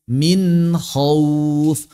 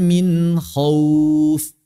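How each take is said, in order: No difference in how they are said.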